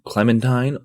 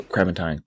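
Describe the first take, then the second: First: Said in the usual way. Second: "clementine" slipped into "crementine", R for L; mispronounced clementine. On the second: Real, not acted. Friend querying the fruit's size, tongue-tied on "clementine" as "crementine". Stumbles on the word, then corrects it.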